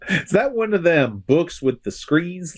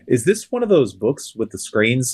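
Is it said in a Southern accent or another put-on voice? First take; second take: Southern accent; other voice. First: It is said in a Southern accent. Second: It is said in a different impersonated voice.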